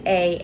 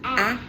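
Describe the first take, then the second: First: The vowel is a long 'ay' sound. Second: The vowel is a short 'ah' sound. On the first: "and a long vowel sound" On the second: "They have a short vowel sound"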